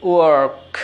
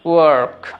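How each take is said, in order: First: The r sound is clearly pronounced. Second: The r sound is clearly pronounced.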